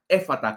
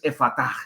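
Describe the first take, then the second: First: The stress is on the first syllable. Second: The stress is on the last syllable. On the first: The speaker calls it wrong. "con el acento inicial en la E" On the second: The speaker calls it right. "con la fuerza en la A final"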